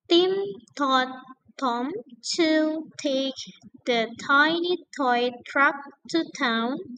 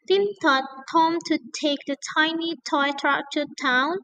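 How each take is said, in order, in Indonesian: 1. Kalimat itu diucapkan dengan tempo lebih lambat. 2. Kalimat itu diucapkan dengan tempo lebih cepat.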